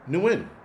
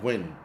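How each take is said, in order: First: The name begins with an audible N sound. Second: The name begins with a plain W sound. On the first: The speaker calls it right. "The N is pronounced" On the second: The speaker calls it wrong. "Nguyen is pronounced Win"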